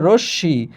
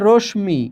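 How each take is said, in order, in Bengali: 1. কোনো "m" ধ্বনি নেই; "sh" দ্বিগুণ উচ্চারিত হয়। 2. "sh" এর পর একটি "m" ধ্বনি আসে। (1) "কিন্তু উচ্চারণ হচ্ছে রশ্মি" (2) "এখানে লেখা আছে রশ্মি"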